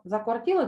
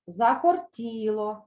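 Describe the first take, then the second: First: Said in the usual way. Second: Закортіло said slowly, stressed on ТІ; teacher models Закортіло for pupils; slow drill Закортіло. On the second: Shown as a demonstration. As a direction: spell out Закортіло syllable by syllable. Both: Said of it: "Повторюйте за мною".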